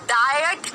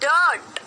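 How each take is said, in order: First: The vowel is an 'eye' sound. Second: The vowel is an 'er' sound. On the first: The speaker calls it wrong. "डाइट नहीं बोला" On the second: The speaker calls it right. "अ की।"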